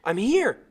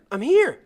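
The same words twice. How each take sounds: First: Loud, higher shout; yelled. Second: Even louder, much higher shout; louder yell. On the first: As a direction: call out across the water to the boat. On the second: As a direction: push harder so the boat hears. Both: Acted. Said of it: "I yelled".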